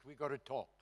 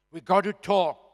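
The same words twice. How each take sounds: First: Said in the usual way. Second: Insistent repeat. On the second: Retold or imitated. Urging APLA secretary on phone.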